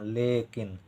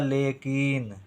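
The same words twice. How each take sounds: First: The second syllable has a short vowel. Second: The second syllable has a long vowel. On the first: The speaker calls it right. "ई का उच्चारण कम समय के लिए" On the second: The speaker calls it wrong. "का में बड़ी की मात्रा लिख दें तो ये हो जाएगा लेकिन"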